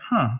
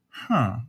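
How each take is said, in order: First: It is said fast. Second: It is said slowly.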